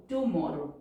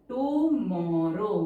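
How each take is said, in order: First: Said in the usual way. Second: Tomorrow stretched very slowly, syllable by syllable; slow writing-speed tomorrow, vowels held long; drawn-out dictation. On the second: Shown as a demonstration. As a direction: draw out each syllable of tomorrow.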